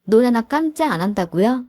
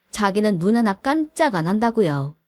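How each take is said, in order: First: Incredulous echo. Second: Said in the usual way. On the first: Retold or imitated. Daughter-in-law repeating mother-in-law's threat, incredulous. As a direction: echo it back as a rising question. Echoes the threat back in disbelief.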